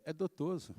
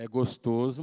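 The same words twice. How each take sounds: First: Put-on "dotoso" said softly as a toddler, with d for g; small child saying "dotoso" instead of "gostoso"; "dotoso" in a soft baby voice; toddler mispronunciation. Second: "gostoso" said clearly with a hard g, as the father; father correcting to "gostoso"; plain adult "gostoso"; correct word. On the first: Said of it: "daquele jeito de criança falar". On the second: Retold or imitated. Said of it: "É dotoso".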